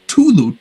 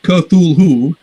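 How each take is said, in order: First: The word begins with a plain t sound. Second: The word begins with a k-th sound. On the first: "another story he renders as Tulu, T U L U" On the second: "It's not Cthulhu"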